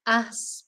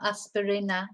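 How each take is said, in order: First: Aspirina with a clear Spanish ee, as-pee-ree-na; Spanish pronunciation. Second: Aspirina said the English way, as-puh-ree-nuh; English pronunciation. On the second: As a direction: give aspirina a wrong English sound. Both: Shown as a demonstration. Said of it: "not aspirina".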